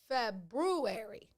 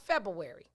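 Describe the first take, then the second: First: The r after Feb is clearly pronounced. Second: The r after Feb is left out. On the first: The speaker calls it right. "There's an R there" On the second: The speaker calls it wrong.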